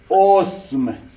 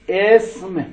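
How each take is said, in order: First: The first vowel is u. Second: The first vowel is i.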